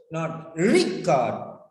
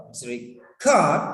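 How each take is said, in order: First: Record said slowly as the wrong RE-cord; the mistaken stress on re in record; wrong stress, slowed. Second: Record with the stress on cord, re-CORD; the right verb stress on record; correct stress. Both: Shown as a demonstration.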